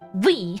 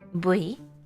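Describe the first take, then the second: First: The word begins with a v sound. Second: The word begins with a b sound. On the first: It is the newer, modern way of saying it. "This is a newer pronunciation, but you you would pronounce that V" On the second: It is the usual, traditional way of saying it. "Usually it's just bui"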